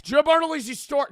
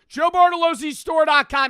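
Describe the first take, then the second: First: Bartolozzi slipped to an "oo" sound before "zee"; mispronounced surname. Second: Bartolozzi shouted with an "oh" sound before "zee"; corrected surname. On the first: Streamer fumbling own Bartolozzi in a loud plug, "LOO" for "LOH", mispronounced surname. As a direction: shout Bartolozzi wrongly, as "Barna-LOO-zee". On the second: Streamer redoing the plug with Bartolozzi said "LOH-zee", corrected surname. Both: Real, not acted. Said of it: "I said my last name wrong".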